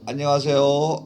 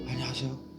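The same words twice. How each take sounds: First: The voice sounds firm and supported, without leaking. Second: The voice sounds airy, with breath leaking out. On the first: The speaker calls it right. "몸이 반응을 하는 거예요" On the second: The speaker calls it wrong. "다 새버려요 이게"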